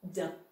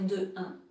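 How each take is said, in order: First: The vowel of de is dropped before un. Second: The vowel of de is kept before un. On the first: The speaker calls it right. "donc on dit d'un" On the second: The speaker calls it wrong. "on ne peut pas dire de un"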